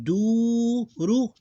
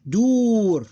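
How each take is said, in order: First: Duru high and slow, long du then ru; two separate syllables. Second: Dur high, loud and long, closing on r; one closed syllable. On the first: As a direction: stretch du in duru, add a separate ru. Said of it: "two separate ones". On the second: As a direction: hold dur as one beat, no vowel after r. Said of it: "this is closed syllable". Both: Shown as a demonstration.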